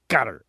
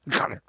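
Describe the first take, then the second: First: The name is said in a plain anglicized way. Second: The name is said harshly, imitating a native pronunciation.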